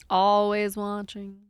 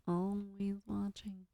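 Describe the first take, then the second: First: Drawn-out mock menace. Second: Slow, much softer mock menace; creepy hushed quote. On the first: Quoting film character. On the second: Streamer quoting a film at Automod, slow hush.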